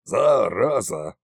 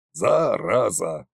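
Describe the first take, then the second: First: Slow, low sulky Зараза; glum curse. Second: Slow, low self-pitying Зараза; self-pitying curse. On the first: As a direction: sigh it out in self-pity. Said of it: "загрустил царь-батюшка". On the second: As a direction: mutter Зараза feeling sorry for yourself. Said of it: "повторил Кощей, посочувствовав самому себе". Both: Acted.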